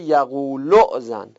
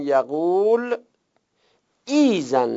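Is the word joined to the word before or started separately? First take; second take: joined; separate. First: It is joined to the previous word without a vowel. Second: It starts fresh after a stop, with 'ee'. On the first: "لام رو بزنیم میشه یقولو زن" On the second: "اگر شما وقف کردید اینطوری میشه"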